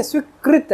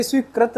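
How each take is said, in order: First: स्वीकृत as "swee-krit", pitched up; higher, corrective "krit" in स्वीकृत; correct pronunciation. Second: स्वीकृत as "sweekrat"; the mistaken "krat" ending on स्वीकृत; wrong pronunciation. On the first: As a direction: say स्वीकृत with an emphatic "kri". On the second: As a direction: say स्वीकृत with "kra", not "kri". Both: Shown as a demonstration. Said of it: "जबकि ये स्वीकृत नहीं है".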